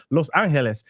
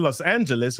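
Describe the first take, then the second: First: "Los Angeles" with "loh-s ahn-heh-less" vowels; Spanish pronunciation. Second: Said in the usual way. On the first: Shown as a demonstration. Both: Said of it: "I'm trying to get my Spanish accent on".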